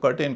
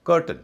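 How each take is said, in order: First: कर्टेन with a long "tayn" ending; full ay vowel at the end of कर्टेन; common mispronunciation. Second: कर्टन said "KUR-tuhn"; short schwa at the end of कर्टन; unstressed last syllable in कर्टन; correct weak ending. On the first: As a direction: mistaken कर्टेन, said "kur-TAYN". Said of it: "इसे लोग कर्टेन कहते हैं". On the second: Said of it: "इसका उच्चारण भी कर्टन होगा". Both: Shown as a demonstration.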